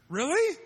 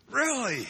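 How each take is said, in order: First: High, loud disbelieving rise; incredulous really. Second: High, loud falling really; flat disbelief. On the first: Preacher about doubting disciples, incredulous high question. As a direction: pitch it way up in disbelief. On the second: Preacher about doubting disciples, falling incredulous really. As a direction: bring it down in disbelief. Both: Real, not acted.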